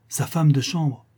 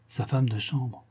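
First: Seconde reprise plus affirmée; répète en haussant un peu le ton; étonnement appuyé. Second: Écho retenu, plus doux; répète-le tout bas, comme pour toi; reprise étonnée. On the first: Répétition renforcée de la réplique. (étonnement qui monte, voix plus ferme) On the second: Reprise incrédule de la réplique. (reprise étonnée, à voix plus douce) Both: Acted.

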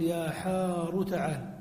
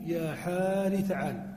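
First: يا حار تعال with the ر of حار voiced as ḥāru; حار ending on a clear u vowel: ḥāru; raa with damma. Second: يا حار تعال with the ر of حار kept at kasra: ḥāri; حار ending on a short i vowel: ḥāri; raa with kasra. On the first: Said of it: "ثم ننقل الضمة التي على الثاء إلى الراء". (نطق حار بضم الراء: يا حارُ تعال) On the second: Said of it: "وإبقاء ما قبله على حاله". (نطق حار بكسر الراء: يا حارِ تعال) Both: Shown as a demonstration.

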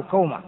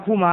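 First: كومة said kawma, with an aw glide; vowel a. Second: كومة said kūma, with a long u; vowel u. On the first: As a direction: say كومة as KOW-ma. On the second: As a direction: say كومة as KOO-ma. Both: Shown as a demonstration. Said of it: "بفتح الكاف وضمها".

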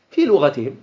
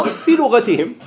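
First: Said in the usual way. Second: في raised high and hit hard, then لغتهم; في picked out higher than the rest; stress on في. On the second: Shown as a demonstration. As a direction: lean hard on في to make the point.

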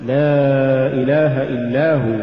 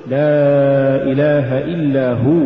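First: Slow chant with إلا هو fused, falling; weak هو tacked onto إلا; words run together. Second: Long لا, then هو stressed and rising by itself; separate words. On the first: Teacher shows the mistake, إلا هو run together. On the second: Teacher models correct recitation, هو set apart from إلا. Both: Shown as a demonstration. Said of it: "ولا تقل".

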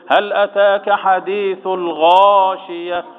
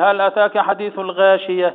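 First: Slow chant with a heavy, full غا in الغاشية; correct tajweed. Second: الغاشية read quickly in speech pace with a light, thin غا; wrong reading. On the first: Sheikh models the correct reading, slow heavy chant. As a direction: draw out الغاشية, giving the غا full heaviness. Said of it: "يقول إيه؟". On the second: Sheikh shows students the wrong way, plain quick reading. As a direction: show the mistake: a light غا in الغاشية, spoken fast. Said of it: "ما ينفعش يقول". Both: Shown as a demonstration.

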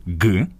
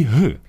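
First: «г» said as a hard stop g, like English go; a clean plosive g for the letter «г»; hard g sound. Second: «г» said as the breathy Ukrainian h; a voiced glottal h for «г»; soft h sound. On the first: Host to listeners, showing the hard g sound. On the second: Host to listeners, showing the breathy h sound. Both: Shown as a demonstration. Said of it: "у яких є звуки".

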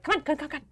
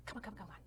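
First: High, rapid-fire chivvying; hurried urging. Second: Very soft, murmured chivvying; hushed urging. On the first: Kina ushering visitors up the stairs, urging. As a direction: hustle them along in a higher voice. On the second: Kina leading visitors backstage, urging quietly. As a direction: urge them on under your breath. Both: Acted.

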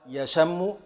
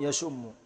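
First: يشم said "yashammu"; merged, with a. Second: يشم said "yashummu"; merged, with u. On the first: Teacher recaps the alima pattern, يشم with a on sh. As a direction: say يشم as ya-sham-mu, holding the m. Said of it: "من بابي علم". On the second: Teacher recaps the qatala pattern, يشم with u on sh. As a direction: say يشم as ya-shum-mu, holding the m. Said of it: "في الإدغام". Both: Shown as a demonstration.

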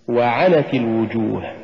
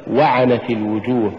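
First: وعنت with و set apart and ع pushed; push after waw. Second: وعنت run together, no push on ع; wrong stress. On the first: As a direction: lean on عنت in وعنت. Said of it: "قل". (نطق وعنت بدفع العين بعد الواو) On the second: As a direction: say وعنت quickly, weight on the و. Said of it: "ولا تقل". (نطق وعنت دون دفع العين) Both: Shown as a demonstration.

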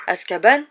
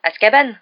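First: "Azkaban" rising, puzzled, as a question; uncomprehending question. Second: "Azkaban" loud and higher, stated firmly; impatient clarification. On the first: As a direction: repeat "Azkaban" blankly, lifting the end. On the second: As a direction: hit "Azkaban" hard, as if it were obvious. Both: A narrator's reading. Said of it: "répéta Harry sans comprendre".

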